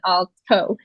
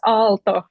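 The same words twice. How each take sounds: First: The T is hard, not soft and dental. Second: The T is soft, with tongue on teeth. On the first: The speaker calls it wrong. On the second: The speaker calls it right.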